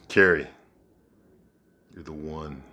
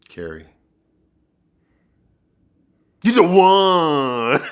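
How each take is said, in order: First: It is said in a calmer, plainer way. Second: It is said in an exaggerated, dramatic way.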